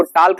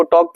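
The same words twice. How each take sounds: First: टाल्क said as "taalk", L sounded; L wrongly pronounced. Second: टॉक said as "tawk", no L; silent L. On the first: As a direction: mispronounce talk as टाल्क, with a clear L. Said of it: "इसको टाल्क नहीं पढ़ेंगे". (टाल्क में L का गलत उच्चारण) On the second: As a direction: say talk as टॉक, dropping the L. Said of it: "एल silent होगा". (टॉक में L silent) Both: Shown as a demonstration.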